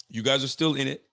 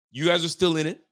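First: Said in the usual way. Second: Up and louder on guys, rising end; emphatic you guys, still in it; excited rise. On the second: Real, not acted. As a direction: hype them up.

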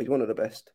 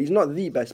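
First: ONE stressed, then tailing off softer. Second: THE said as an emphatic "thee"; stress on THE. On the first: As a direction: lean on "one" to mean one among several. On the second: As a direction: lean on "the" to mean the single best. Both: Real, not acted. Correcting what he claimed.

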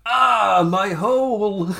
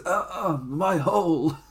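First: Loud, high, drawn-out mock wail; milk the pain like a hammy actor; over-dramatic cry. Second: Half-hearted imitation of a pained cry; mildly raised, held-back mock moan; Nia Jax. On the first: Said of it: "done it way more dramatically". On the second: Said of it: "trying to do the Nia Jax things".

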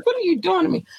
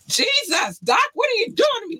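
First: Said in the usual way. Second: High, fast playful shout; mock outrage. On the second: Real, not acted. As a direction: cry out in mock despair. Playful protest at hard quiz.

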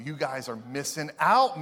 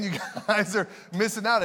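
First: Said in the usual way. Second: Laughing. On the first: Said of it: "repeated phrase". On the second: Shown as a demonstration. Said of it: "repeated laughing".

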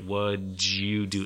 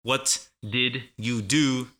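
First: "What'd you" slowly blended into "wudjoo"; slow, linked "What'd you do"; combined sounds. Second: "What did you do?" slowly, every word apart; slow, unlinked "What did you do"; full separate words. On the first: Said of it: "they all combine". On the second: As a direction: pronounce the T in "What" and all of "did". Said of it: "Instead of". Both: Shown as a demonstration.

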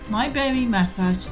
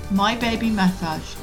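The two takes are said the same way.

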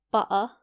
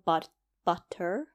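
First: "butter" with the T left out; dropped T. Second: "butter" slowly, with the letters sounded out; over-enunciate the T and R in "butter". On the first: Showing British habit of skipping letters, T dropped in "butter". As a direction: say "butter" without sounding T or R. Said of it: "we don't like to say those a lot". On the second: Guessing what listeners expect, "butter" over-enunciated. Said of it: "the T's and the R's". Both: Shown as a demonstration.

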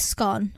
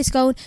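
First: SCONE rhyming with gone; "scone" with a clipped short vowel. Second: SCONE rhyming with cone; long O. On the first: Retold or imitated. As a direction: say "scone" as "skon". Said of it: "my mum says scone". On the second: Shown as a demonstration. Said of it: "it's got cone in it".

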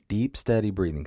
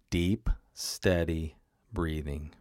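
First: Said in the usual way. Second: Slow, soft and lower, like guiding a breath; calm breathing cue. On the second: Shown as a demonstration. Coach modelling calm for listeners, slow soft voice. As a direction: ease them into "deep, steady breathing" slowly and softly.

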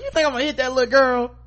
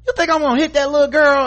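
First: Mock indignant yell. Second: High, loud, fast indignant yell; mock furious shout. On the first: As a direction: fire it back in disbelief. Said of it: "She's like". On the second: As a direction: scream it down at the girl. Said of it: "she was like".

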